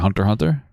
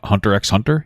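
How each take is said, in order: First: The letter X is left out between the words. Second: The letter X is spoken between the words. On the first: The speaker calls it right. "You say Hunter Hunter?" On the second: The speaker calls it wrong. "You don't say the X?"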